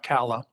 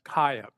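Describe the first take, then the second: First: The middle consonant is an L sound. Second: The middle consonant is a Y sound. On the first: This is how the family says the name. The speaker calls it right. "but I am a Kala" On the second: This is the Spanish-style reading of the name. The speaker calls it wrong. "It's often pronounced Kaya because in Spanish the two L's are I"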